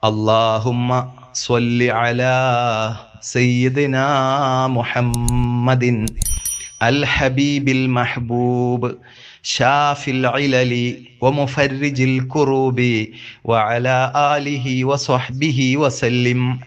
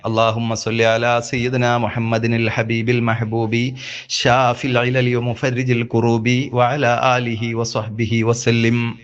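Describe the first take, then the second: First: It is recited slowly, words kept separate. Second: It is recited fast, words run together.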